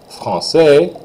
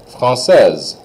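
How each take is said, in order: First: High, rising français without its S; silent S. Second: Falling française with a Z ending. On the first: Teacher contrasts boy and girl forms, S dropped from français. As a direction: leave français open at the end, no S. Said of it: "don't say that S at all". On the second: Teacher contrasts boy and girl forms, Z sounded in française. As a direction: finish française firmly on the Z. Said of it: "I say the S like a Z sound". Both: Shown as a demonstration.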